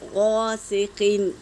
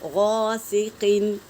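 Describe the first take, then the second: First: The first consonant is heavy and full. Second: The first consonant is heavy and full.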